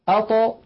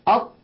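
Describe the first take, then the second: First: Echoing qalqala. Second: أط stopped dead with no release; wrong take; flat at. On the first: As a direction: make the ط of أط spring open. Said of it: "يقولون". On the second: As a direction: cut off the ط of أط. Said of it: "بدل أن يقولوا". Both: Shown as a demonstration.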